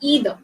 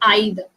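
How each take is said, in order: First: It is said in an American English accent. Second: It is said in a British English accent. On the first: "And in American English, you say either" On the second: "in British English, we pronounce it as either"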